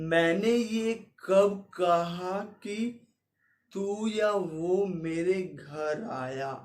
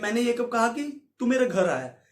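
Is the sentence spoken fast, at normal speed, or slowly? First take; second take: slow; normal. First: The sentence is spoken slowly and drawn out. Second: The sentence is spoken at an ordinary speed. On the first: "slow mo में करूं" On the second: "normal वे में बोलता हूं"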